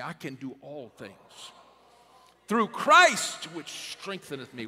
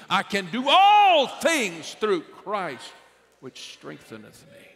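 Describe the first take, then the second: First: Said in the usual way. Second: Slow, much higher and louder on all things; said with belief. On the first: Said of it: "I wish somebody would say that with me". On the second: Shown as a demonstration. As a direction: declare it slowly, full of conviction. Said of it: "you need to say it with belief".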